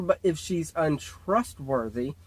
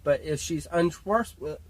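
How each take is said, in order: First: It is said more slowly. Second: It is said at normal speed.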